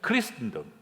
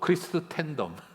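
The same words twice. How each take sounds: First: It is said with an English-like accent. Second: It is said with a Korean-style accent.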